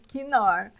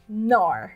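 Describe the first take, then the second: First: The word starts with a k sound and vowel. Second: The word starts directly with an n sound. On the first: The speaker calls it wrong. "Não quinor" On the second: The speaker calls it right. "em inglês se diz nor"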